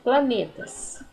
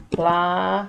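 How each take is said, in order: First: Said in the usual way. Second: "Planetas" spaced out as PLA, NE, TAS; long pause after each syllable of "Planetas". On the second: Shown as a demonstration. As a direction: dictate "Planetas" slowly in three beats. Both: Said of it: "vou separar".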